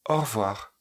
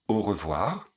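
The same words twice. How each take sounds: First: It is pronounced in a more relaxed, reduced way. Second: It is pronounced in a more careful, standard way.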